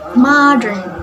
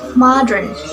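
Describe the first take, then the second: First: It is said in an American accent. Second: The same.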